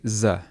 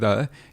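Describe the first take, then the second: First: The word begins with a buzzing 'z' sound. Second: The word begins with a soft 'th' sound. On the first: The speaker calls it wrong. "you say z" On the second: The speaker calls it right. "instead of saying the"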